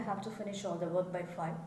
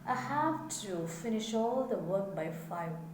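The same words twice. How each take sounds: First: It is said flatly, without feeling. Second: It is said with felt obligation.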